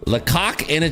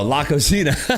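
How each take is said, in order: First: It is split like 'lecoq in a'. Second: It is split like 'la cocina'. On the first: The speaker calls it wrong. "I'm sure I'm saying it wrong" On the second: The speaker calls it right. "Oh, La Cocina"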